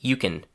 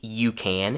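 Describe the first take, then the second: First: The vowel is reduced, sounding like 'kin'. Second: The vowel is a full, open 'a' sound. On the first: The speaker calls it right. "instead we say you can" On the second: The speaker calls it wrong. "We don't say you can"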